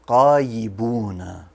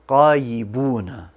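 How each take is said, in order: First: The word begins with a deep q sound. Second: The word begins with a deep q sound.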